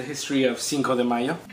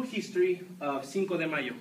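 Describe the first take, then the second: First: Said in the usual way. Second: Put-on Mexican accent, softer; fake Mexican accent. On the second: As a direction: say it as a Mexican foreigner would. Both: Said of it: "my accent is in fact fake".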